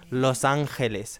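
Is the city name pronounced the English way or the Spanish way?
Spanish. The name is said with a Spanish pronunciation. The speaker calls it right.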